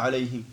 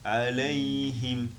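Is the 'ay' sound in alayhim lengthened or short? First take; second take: short; lengthened. First: The 'ay' sound is short, not lengthened. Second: The 'ay' sound is slightly lengthened. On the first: The speaker calls it wrong. "On ne dit pas alayhim" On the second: The speaker calls it right. "On le prolonge un petit peu"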